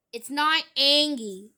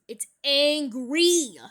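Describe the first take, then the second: First: ANGIE loud, without the R; wrong word corrected. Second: ANGRY slow and loud, in two syllables; corrected word. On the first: Vlogger correcting a commenter's spelling, loudly rejecting "Angie". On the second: Vlogger correcting a commenter's spelling, "angry" slow and loud. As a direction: stretch "angry" into ang-REE. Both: Shown as a demonstration. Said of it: "Correct your spelling".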